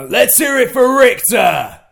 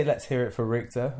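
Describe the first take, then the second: First: Booming London announcer shout, slow and much higher; fake deep London voice. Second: Said in the usual way. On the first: Shown as a demonstration. Asked by his friend to do his old London ring voice. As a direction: bellow it like a London wrestling promo. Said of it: "a more fake London deep voice". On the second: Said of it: "Give me some, I used to say".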